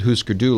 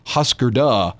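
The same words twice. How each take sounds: First: The u vowels are plain long oo sounds. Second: The u vowels are rounded front umlaut sounds. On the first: This follows the original board game. "they pronounce it Husker Du like the original game" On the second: This follows the umlauts over the letters. "So it would be pronounced, I guess, ... If you did it correctly"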